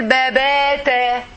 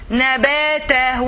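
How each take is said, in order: First: Babata, the first n swapped for a b, said slowly; babata, a slow mock misreading; wrong babata. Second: Nabata, each syllable slow and distinct, with the n clear; nabata, slow model reading; nabata said right. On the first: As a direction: show the mistake babata in place of nabata. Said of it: "When you say, for example". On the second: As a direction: spell out nabata slowly and carefully. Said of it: "it is that like this one". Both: Shown as a demonstration.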